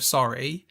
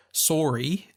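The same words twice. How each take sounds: First: Said in the usual way. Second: "sorry" with a long "sore" vowel; Canadian "sorry". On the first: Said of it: "instead of". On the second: Retold or imitated. Showing the actor's pronunciation, Canadian "sorry" said sore-ee. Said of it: "picked up on him saying".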